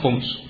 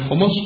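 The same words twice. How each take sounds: First: The word is shortened to a single syllable. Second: The word is said in full with two syllables. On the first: "میشه تخفیفش رو ساده تر گفت" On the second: "به جای خمس"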